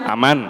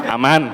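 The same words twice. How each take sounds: Both takes have the same delivery.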